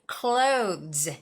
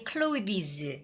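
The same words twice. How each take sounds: First: The th sound is dropped, sounding like close. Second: The th sound is pronounced clearly and distinctly. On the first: The speaker calls it right. "just say clothes" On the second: The speaker calls it wrong. "they say clothes"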